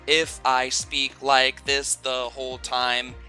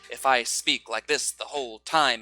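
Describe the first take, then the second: First: Every syllable has the same length and strength. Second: Some syllables are clearly stronger than others. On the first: The speaker calls it wrong. "it sounds very robotic" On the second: The speaker calls it right. "it might sound a little bit unnatural"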